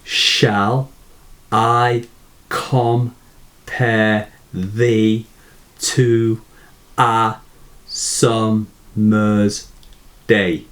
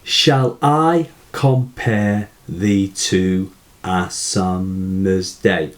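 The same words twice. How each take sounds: First: "Shall I compare thee to a summer's day?" in separate beats with pauses between; very slow beat-by-beat "Shall I compare thee to a summer's day?"; stresses picked out. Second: Slow, even syllable count; measured syllable-counting demo. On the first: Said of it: "notice how the poet makes the stress". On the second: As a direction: recite it slowly, checking off each syllable. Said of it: "So let's just check". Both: Shown as a demonstration.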